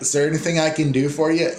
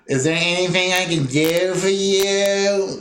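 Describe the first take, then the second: First: Sincere offer. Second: Higher, slow, sarcastic drawl; mock fake politeness. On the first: Retold or imitated. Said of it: "And they mean". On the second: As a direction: drag it out like a bored clerk brushing you off. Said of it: "what they mean is".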